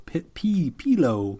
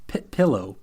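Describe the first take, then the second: First: "pillow" said as PEE-loh; altered pronunciation. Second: "pillow" with a short i, PILL-oh; tentative PILL-oh for "pillow"; trying out pronunciation. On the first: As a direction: stretch the i of "pillow" into ee. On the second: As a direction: test "pillow" as PILL-oh after a false start. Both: Shown as a demonstration. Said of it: "speculate as to how he pronounced that word".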